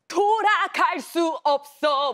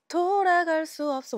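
First: The line is delivered loudly, with strong projection. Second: The line is delivered softly, without strong projection. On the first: The line must be conveyed to another character. "근데 진짜 거기서는 돌아갈 수 없어 돌아갈 수 없어 막" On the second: It expresses the singer's own charm and personality. "그냥 가요 같았으면은 돌아갈 수 없어 뭐 이렇게 했을"

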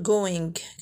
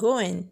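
First: The final g sound is clearly pronounced. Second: The final g sound is not pronounced. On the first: The speaker calls it wrong. "ما يمكنش نقول going" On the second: The speaker calls it right. "كنقول going"

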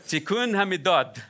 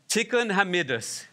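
First: It ends with a Sephardi 't' sound. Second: It ends with an Ashkenazi 's' sound.

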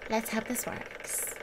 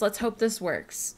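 First: It is said in a put-on character voice. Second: It is said in the speaker's normal voice.

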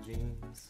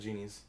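First: The name is said as 'Jeans'. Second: The name is said as 'Genies'. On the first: This is the shop's real name. The speaker calls it right. "it's still jeans" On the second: This is how others say the name. The speaker calls it wrong. "you all said Genies"

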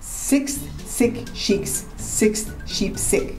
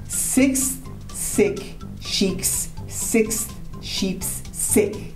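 First: It is said at a faster pace. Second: It is said at a normal, slower pace.

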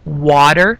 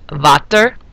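First: The word begins with a W sound. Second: The word begins with a V sound. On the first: "instead of water" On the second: "the W makes the V sound"

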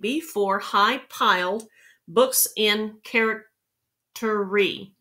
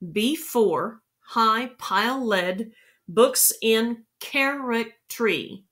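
First: The word piled is said with one syllable. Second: The word piled is said with two syllables. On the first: The speaker calls it wrong. "that's only 9" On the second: The speaker calls it right. "piled needs to be pronounced with 2 syllables"

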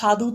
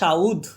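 First: The u sound comes after the dh. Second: The u sound comes before the dh. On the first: "হুস্যুকারটা এটা কিন্তু ধয়ের নিচে ছিল, পরে উচ্চারিত হচ্ছিল" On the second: "রস্যুটা আগে উচ্চারিত হয়ে যাচ্ছে"

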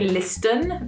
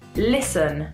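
First: The T sound is clearly pronounced. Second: The T sound is left out. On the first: The speaker calls it wrong. "we don't say listen because that just doesn't sound right at all" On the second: The speaker calls it right. "We just say listen"

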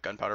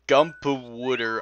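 First: The word starts with 'gun' and ends 'powder'. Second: The word starts with 'gum' and ends 'powooder'.

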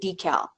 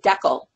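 First: It is said the American way. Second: It is said the Canadian way. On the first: "We don't say decal" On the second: "in Canada we say decal"

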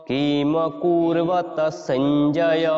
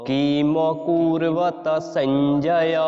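No difference in how they are said.

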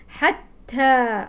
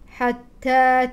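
No difference in how they are said.

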